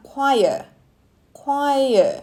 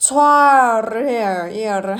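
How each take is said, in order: First: "choir" said as kwai-yer; correct pronunciation. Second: "Choir" drawn out with a ch sound, as spelt; mock struggle to read "Choir" letter by letter; wrong reading. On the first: Teacher revealing how it is really said, correct "choir" as kwai-yer. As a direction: say "choir" with a kw start, two syllables. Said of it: "ออกเสียงว่า choir". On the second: Teacher joking that it is hard to read, mock misreading "Choir" with ch. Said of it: "อ่านยากเนาะ". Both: Shown as a demonstration.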